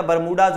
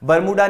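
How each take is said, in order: First: बरमूडाज closing on a Z sound; corrected form बरमूडाज, Z at the end; plural final Z. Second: बरमूडा ending on an open AA, raised; the rejected form बरमूडा, vowel at the end; singular without S. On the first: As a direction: add a Z after the AA in बरमूडाज. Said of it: "बरमूडाज होता है". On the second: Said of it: "बरमूडा नहीं होता". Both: Shown as a demonstration.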